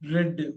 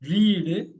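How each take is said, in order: First: The vowel is short, like 'red'. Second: The vowel is long, like 'reed'. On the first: It is the past tense of reading. "இந்த ரெட் வந்து படித்தேன்" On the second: It is the present tense of reading. "First போடுறப்ப ரீடு"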